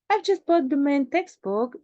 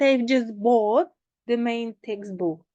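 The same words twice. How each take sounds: First: The voice does not rise on 'bought'. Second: The voice rises on 'bought'. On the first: The speaker calls it right. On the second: The speaker calls it wrong.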